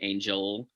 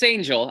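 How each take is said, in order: First: The L sound is held long. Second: The L sound is short and plain.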